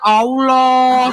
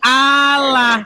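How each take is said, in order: First: The second vowel sounds like an 'o'. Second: The second vowel sounds like a plain 'a'. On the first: It adds a sound not in the written letters. The speaker calls it wrong. "Sejak kapan di sini ada huruf O?" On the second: It follows the Latin letters as written. The speaker calls it right. "Berarti Allah"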